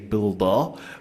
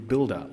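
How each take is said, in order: First: It is said in an imitated Boston accent. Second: It is said in the speaker's ordinary accent.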